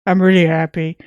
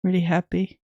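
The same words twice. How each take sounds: First: Louder, brighter "I'm really happy". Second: Deadpan, unexcited "Really happy"; neutral voice. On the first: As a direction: push real joy into it. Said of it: "I hope you can hear the smile in my voice". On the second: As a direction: say it with no joy at all. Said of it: "The most neutral and not happy voice ever". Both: Real, not acted.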